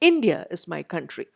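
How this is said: The noun India is clearly stressed. The speaker calls it right. "ആ നൗണിൽ എപ്പോഴും നമ്മൾ stress കൊടുക്കും"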